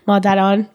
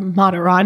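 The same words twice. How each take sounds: First: The name has a Persian pronunciation. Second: The name has an English pronunciation.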